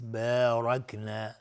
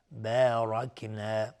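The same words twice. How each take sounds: First: بارکنا slow, the ب light and the را heavy. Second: بارکنا slow again, the ب kept light. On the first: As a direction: say بارکنا slowly with a thin ب. (بارکنا آرام با بای نازک و رای درشت) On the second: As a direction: drawl بارکنا with a thin ب. (بارکنا کشیده با بای نازک) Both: Shown as a demonstration. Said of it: "و با ترقیق است".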